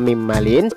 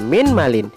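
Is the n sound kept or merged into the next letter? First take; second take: merged; kept. First: The n merges into the following m sound. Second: The n is pronounced separately before the m. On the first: The speaker calls it right. "wajib dibaca mim malin" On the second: The speaker calls it wrong. "tidak boleh dibaca min malin"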